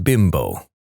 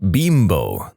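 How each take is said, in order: First: "Bimbo" said as BIM-bo, with a short i; English pronunciation. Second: "Bimbo" said as BEEM-bo, with a long ee; Mexican pronunciation. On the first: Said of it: "not Bimbo". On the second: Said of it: "They pronounce it Bimbo". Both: Shown as a demonstration.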